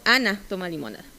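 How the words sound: The pitch peak falls on the stressed syllable. It is Ana, not someone else, who drinks lemonade. "cuando es contrastivo"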